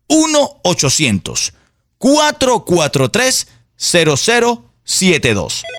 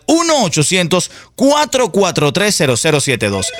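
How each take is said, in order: First: The number is said slowly. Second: The number is said at normal speed.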